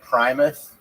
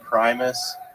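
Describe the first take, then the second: First: The final s is lisped like th. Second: The final s is a clear hiss.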